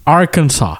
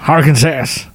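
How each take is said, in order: First: The final s is silent. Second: The final s is pronounced, ending in 'ass'. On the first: The speaker calls it right. "On prononce les A comme des A en français et le dernier S est muet" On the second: The speaker calls it wrong. "Mais tu finis en disant ass"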